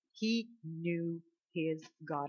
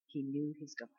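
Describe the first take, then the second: First: Soft and very slow, word by word; slow, weighty repetition. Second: Very soft, low answer; hushed revelation. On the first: Preacher repeating David's secret to the congregation, slow and solemn. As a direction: let each word of the quiet line land. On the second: Preacher answering what made David different, hushed. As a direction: drop right down, almost confiding. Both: Real, not acted.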